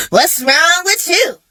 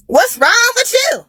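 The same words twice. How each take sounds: First: Higher, slow, annoyed "what's wrong with you"; exasperated daughter, first ask; annoyed question. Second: Exasperated outburst. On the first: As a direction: ask it slowly, already fed up. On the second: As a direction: push it up into a fed-up yell. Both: Retold or imitated. Annoyed at mama calling repeatedly.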